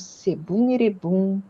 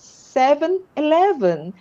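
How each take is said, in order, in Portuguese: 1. É dito com sons de estilo japonês do início ao fim. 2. É dito com sons do inglês do início ao fim. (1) "uns amigos falaram assim" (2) "era Seven Eleven"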